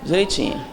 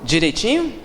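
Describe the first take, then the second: First: "Direitinho." said flat and settled, no rise at the end; level statement. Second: "Direitinho?" asked with a rising question tune. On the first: Lecturer answers her own question about audience's Portuguese, flat and dry. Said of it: "Vocês falam português?". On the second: Lecturer probes audience's Portuguese with a rising question. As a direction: lift the end of "Direitinho?" like a doubting question. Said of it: "Vocês sabem falar português?". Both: Shown as a demonstration.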